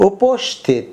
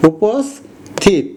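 First: "উপস্থিত" as uposh-thit, with sh; wrong sh pronunciation. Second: "উপস্থিত" very slowly as upos, thit, with s; s pronunciation. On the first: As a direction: put a sh before the th in "উপস্থিত". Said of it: "আমরা এভাবে উচ্চারণ করি নাই". (তালব্য শ দিয়ে "উপস্থিত") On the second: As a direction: split "উপস্থিত" after a plain s. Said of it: "উচ্চারণ ছয়ের মতো হয়েছে". (দন্ত্য স দিয়ে ভেঙে "উপস্থিত") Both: Shown as a demonstration.

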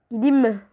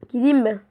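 Both takes have the same delivery.

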